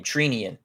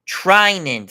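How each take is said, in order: First: Treenian said TREE-nee-an, with a long "ee"; wrong guess at Treenian, first syllable like "tree"; mispronounced name. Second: Treinen said TRY-nen, first syllable high and loud; corrected pronunciation. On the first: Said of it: "I don't know how to pronounce his name". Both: Real, not acted.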